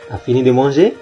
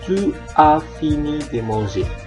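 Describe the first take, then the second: First: The pronoun is merged with the verb as t'as. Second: The pronoun is said in full as two words. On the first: This is the form used in conversation. "Kalau kita mengatakannya secara normal" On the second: This is the form used in writing. "Kalau dalam tulisan ya tetap kita menuliskannya"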